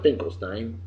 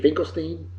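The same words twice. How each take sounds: First: Finkelstein ending in stine, as in wine; usual pronunciation. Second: Finkelstein ending in steen, as in seen; corrected pronunciation. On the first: Host to listener, the usual way: Finkelstein as stine. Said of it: "we always pronounce it Finkelstein". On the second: Host wonders aloud about the right way: Finkelstein as steen. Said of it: "but shouldn't it be Finkelstein". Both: Shown as a demonstration.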